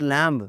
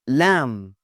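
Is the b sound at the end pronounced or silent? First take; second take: pronounced; silent. First: The final b sound is pronounced. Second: The final b sound is silent. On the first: The speaker calls it wrong. "It's not लैम्ब" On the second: The speaker calls it right. "It's लैम्ब"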